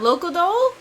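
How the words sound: The name is mushed together, Japanese style.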